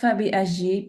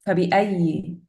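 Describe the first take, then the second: First: The second word has a j sound. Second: The second word has a y sound. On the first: The speaker calls it wrong. "it's not fabi aji because it kind of sounds like you're saying with jim" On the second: The speaker calls it right. "Fabi ayi with ya"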